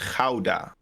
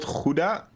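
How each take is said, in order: First: The first vowel sounds like 'ow'. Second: The first vowel sounds like 'oo'. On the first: The speaker calls it right. "Gau. You have a ow" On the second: The speaker calls it wrong. "it's not Gouda"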